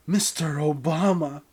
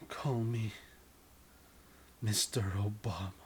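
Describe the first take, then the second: First: Mister Obama said out loud and firm, higher; louder repeat. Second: Whisper. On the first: You repeating the name louder to the lover. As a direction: insist on it, louder this time. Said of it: "repeated louder for the partner". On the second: You whispering the request to the lover, hushed. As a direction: breathe the request into the lover's ear. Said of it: "you whispering the request". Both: Acted.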